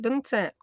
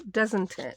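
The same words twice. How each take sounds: First: Said in the usual way. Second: Posh, fully sounded "Doesn't it"; talking posh. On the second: Real, not acted. Crafter restating her tag question to herself, talking posh. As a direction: say every syllable of "Doesn't it", posh. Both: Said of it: "Don't know why I'm talking posh".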